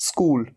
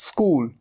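The two takes are said the same way.

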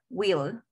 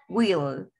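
First: It is said as one contracted syllable. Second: It is said as one contracted syllable.

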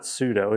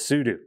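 First: The last syllable sounds like 'dough'. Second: The last syllable sounds like 'do'. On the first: The speaker calls it wrong. "pronounce it wrong" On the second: The speaker calls it right. "It is super user do"

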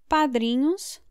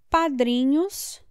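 No difference in how they are said.

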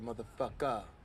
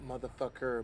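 First: The word ends with an 'ah' sound. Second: The word ends with an 'er' sound. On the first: The speaker calls it right. "I say A-H" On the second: The speaker calls it wrong. "Not motherfucker, You say E-R"

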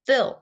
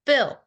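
Both takes have the same delivery.

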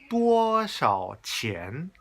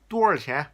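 First: Each syllable is pronounced crisply and separately. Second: The syllables are slurred and rolled together. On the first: The speaker sounds like a foreigner. The speaker calls it wrong. "그런 식으로 정확히 발음을 이제 해버리면 이게 너무 외국인스럽고" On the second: The speaker sounds more like a local. The speaker calls it right. "좀 굴려서"

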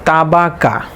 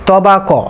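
First: The letters are pronounced thin and light. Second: The letters are pronounced heavy and full-mouthed. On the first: The speaker calls it wrong. "অনেকেই বলে থাকে তা বা কা" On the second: The speaker calls it right. "সঠিক উচ্চারণ হবে ত বা ক"

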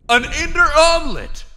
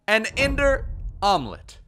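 First: It is said loudly with hyped energy. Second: It is said calmly with ordinary energy. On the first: "it still doesn't sound all that amazing" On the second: "Maybe I didn't say that right"

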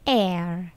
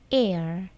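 First: It is said in a British accent. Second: It is said in an American accent. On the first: "Sementara aksen Britishnya, ucapannya air" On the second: "Kalau American, air"

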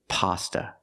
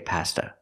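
First: The first vowel sounds like the 'o' in 'hot'. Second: The first vowel sounds like the 'a' in 'cat'. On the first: The speaker calls it right. "We say pasta. Use the short ah sound like hot and stop" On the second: The speaker calls it wrong. "We don't say pasta. Not in America"

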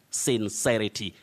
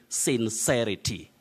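No difference in how they are said.

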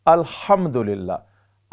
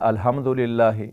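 First: The h is a strong, throaty h. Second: The h is a plain, light breathy h. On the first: The speaker calls it right. "ये अल्हम नहीं है बल्कि ये हा है" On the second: The speaker calls it wrong. "बहुत से पढ़ने वाले पढ़ते हैं"

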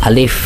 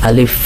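Both takes have the same delivery.

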